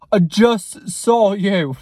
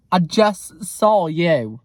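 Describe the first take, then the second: First: Slow, loud put-on voice; drawn-out, loud mock confrontation; put-on intimidating voice. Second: Said in the usual way. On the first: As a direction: confront them slowly in a loud character voice. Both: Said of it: "I didn't do it in the voice".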